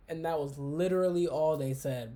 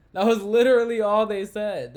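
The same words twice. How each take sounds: First: Said in the usual way. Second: Loud and emphatic That was literally all they said; a sudden loud exasperated restatement; loud exasperated repeat. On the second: Real, not acted. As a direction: say it again much louder, in disbelief.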